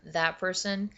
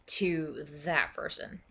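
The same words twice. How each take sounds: First: Said in the usual way. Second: THAT drawn out slowly; slow down and lean on "that"; weighty THAT. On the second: Shown as a demonstration. Contrast with first that person.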